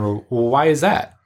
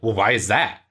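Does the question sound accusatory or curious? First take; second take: curious; accusatory. First: The question sounds curious and open. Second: The question sounds accusatory and judging.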